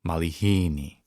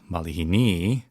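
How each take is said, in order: First: The stress is on the syllable hi. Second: The stress is not on the syllable hi. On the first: The speaker calls it right. "you say malihini" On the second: The speaker calls it wrong. "you don't say malihini"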